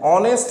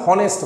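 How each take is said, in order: First: The word begins with a vowel, no h sound. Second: The word begins with an audible h sound. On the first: The speaker calls it right. "এইচ এর উচ্চারণ আমরা করছি না" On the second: The speaker calls it wrong. "আমরা কখনো বলি না"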